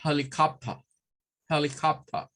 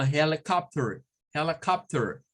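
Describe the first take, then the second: First: Helicopter in a British accent, no final r, HEL-i-cop-tuh; British accent, drop the r. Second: Helicopter in an American accent, rolled final r; American accent, r sounded at the end. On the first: Teacher showing how a Brit says it. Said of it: "Un británico nos va a decir". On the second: Teacher showing how an American says it. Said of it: "Un norteamericano o alguien que hable inglés rótico". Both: Shown as a demonstration.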